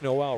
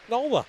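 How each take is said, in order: First: The name ends with an 'l' sound. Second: The name ends with an 'ah' sound. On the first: The speaker calls it wrong. "you would think the name is Noel" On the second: The speaker calls it right. "It's pronounced Nola"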